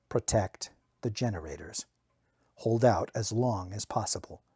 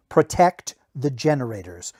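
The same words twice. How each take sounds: First: "Protect the generators" softer and lower, inward; quiet echo. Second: Said in the usual way. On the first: A narrator's reading. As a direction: murmur the order to yourself. Order echoed in narrator's mind.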